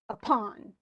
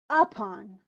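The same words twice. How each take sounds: First: The stress is on the second syllable. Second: The stress is on the first syllable. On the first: The speaker calls it right. "Right. It's the on" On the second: The speaker calls it wrong. "is that correct?"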